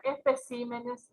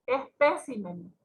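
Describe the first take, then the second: First: "especímenes" stressed on CÍ; stress moved to CÍ. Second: "Espécimen" drawn out slowly, stressed on PÉ. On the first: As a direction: move the stress in "especímenes" to the third syllable. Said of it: "van cambiando la sílaba tónica". ("especímenes" con acento en CÍ) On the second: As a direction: hit the second syllable of "Espécimen". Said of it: "se tendría que cambiar". ("Espécimen" con acento en PÉ) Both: Shown as a demonstration.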